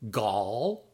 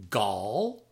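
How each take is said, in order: First: It is said quickly as one syllable. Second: It is said quickly as one syllable.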